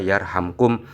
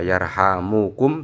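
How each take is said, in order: First: The m runs straight into the k. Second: A u vowel follows the m sound. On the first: It is the result promised by the command. "diwaca jazm" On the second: It is a prayer asking for mercy. "dibaca rofa yarhamukum, mimnya di dhamma"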